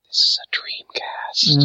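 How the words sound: It is said in a sensual, seductive way.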